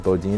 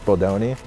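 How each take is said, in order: First: The middle vowel sounds like 'ee'. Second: The middle vowel sounds like 'oh'. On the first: The speaker calls it wrong. "says Bodini" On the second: The speaker calls it right. "it's Bodoni"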